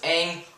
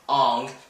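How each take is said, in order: First: The vowel is an open, unrounded 'ah' sound. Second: The vowel is a rounded 'o' sound. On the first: The speaker calls it right. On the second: The speaker calls it wrong.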